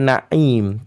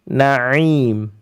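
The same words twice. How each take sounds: First: The 'ain sound is cut off abruptly. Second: The 'ain sound is held smoothly, medium length. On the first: The speaker calls it wrong. "Bukan na'im" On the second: The speaker calls it right. "tapi na'im"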